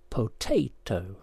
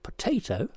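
First: "potato" slowly as po, tay, toe; syllable by syllable. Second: Said in the usual way. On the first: Shown as a demonstration. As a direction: split "potato" into three full, slow syllables. Puzzle answer shown by syllables.

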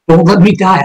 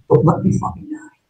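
First: Said in the usual way. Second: Whispered plea, breath only; desperate whisper. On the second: Retold or imitated. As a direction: beg him in a bare whisper, no voice. Begging sergeant not to die.

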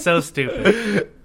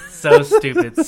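First: Drawn out, laughing slowly. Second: High squealing laugh through words. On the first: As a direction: stretch it out while laughing. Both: Real, not acted. Laughing at her own story.

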